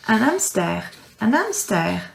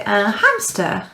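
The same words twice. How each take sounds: First: "un hamster" with a silent H, "amster"; right pronunciation. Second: "un hamster" with the H sounded, English style; wrong pronunciation. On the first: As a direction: drop the H in "hamster". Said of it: "you say un". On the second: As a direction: say "hamster" with a spoken H on purpose. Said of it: "You don't say". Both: Shown as a demonstration.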